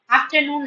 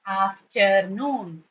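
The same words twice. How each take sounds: First: Said in the usual way. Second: AFTERNOON very slow and lower, af-ter-noon; syllable-by-syllable demonstration. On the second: Shown as a demonstration. Teacher showing class three syllables, slow segmented demonstration. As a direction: break AFTERNOON into three drawn-out beats. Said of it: "Afternoon has three syllables".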